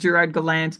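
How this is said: The name is pronounced with an English accent. This is how English-language media usually say it. "in the Anglophone media, I hear him frequently reference as"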